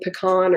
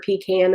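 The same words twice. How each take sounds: First: Pecan with an open AH in the last syllable; pecan as puh-KAHN. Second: Pecan with a short A as in can; pecan as PEE-can. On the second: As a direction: say pecan as "pee-KAN", long ee first. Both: Shown as a demonstration. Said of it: "saying pecan or pecan in the wrong home".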